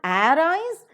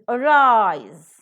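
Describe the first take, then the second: First: The stress is on the first syllable. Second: The stress is on the second syllable. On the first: The speaker calls it wrong. "it is not arise" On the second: The speaker calls it right. "the root is to be stressed and never the prefix"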